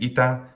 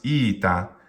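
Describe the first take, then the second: First: Both syllables are short. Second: The first syllable is stretched long. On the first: The speaker calls it right. "instead of saying ita" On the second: The speaker calls it wrong. "you might hear someone mispronounce ita"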